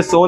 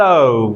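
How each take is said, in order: First: "so" with a plain single o; wrong, usual Indian pronunciation. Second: "so" drawn out to u, lower and falling; correct English pronunciation. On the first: Teacher bans the old habit from today, wrong pronunciation. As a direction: keep "so" short and unglided. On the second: Teacher gives the new way, correct pronunciation. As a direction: glide "so" down from o to u. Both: Shown as a demonstration. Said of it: "आज से so नहीं".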